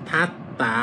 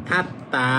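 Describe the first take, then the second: No difference in how they are said.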